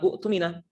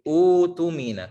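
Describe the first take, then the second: First: A glottal stop follows the short first vowel. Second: The first vowel is held long without a stop. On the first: The speaker calls it wrong. "bukan u tumina" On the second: The speaker calls it right. "akan tapi u tumina ... diganti dengan waw sukun"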